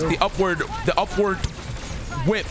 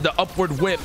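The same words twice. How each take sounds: First: It is said with strong, forceful emphasis. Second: It is said plainly, without extra force.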